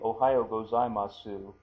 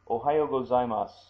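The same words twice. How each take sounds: First: The final su is pronounced fully with its vowel. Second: The final su is softened, its vowel barely heard. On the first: The speaker calls it wrong. "we don't say "Ohayo gozaimasu," although you could. It is uh, kind of clumsy" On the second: The speaker calls it right. "and so that that su is softened"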